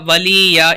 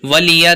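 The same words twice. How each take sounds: First: The vowels are drawn out long. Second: The vowels are short and not drawn out. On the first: The speaker calls it wrong. "बहुत से लोग गलती करें ... इधर भी खींचते हैं" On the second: The speaker calls it right. "देखिए यहाँ पर खींचेंगे नहीं"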